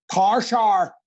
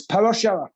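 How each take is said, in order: First: "power shower" squashed to "par shar", Northern Irish; mock Northern Irish vowels, drawn out; Northern Irish accent. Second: Said in the usual way. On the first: Shown as a demonstration. Actor teasing Irish friends, Northern Irish "par shar". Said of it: "in Ireland, it's, uh, it's power shower". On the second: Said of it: "in Ireland".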